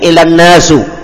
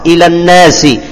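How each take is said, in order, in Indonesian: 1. Kata terakhir berakhir dengan vokal u. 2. Kata terakhir berakhir dengan vokal i. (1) "tidak akan mungkin" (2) "dibaca dengan kasrah"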